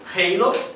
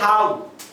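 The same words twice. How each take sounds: First: The word is said with an American English accent. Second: The word is said with a British English accent. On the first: "de acordo com [name] pode ser halo" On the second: "de acordo com a pronúncia britânica pode ser halo"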